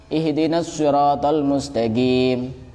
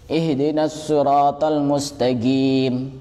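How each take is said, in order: The two takes are said the same way.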